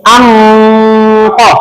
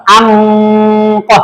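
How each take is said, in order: The two takes are said the same way.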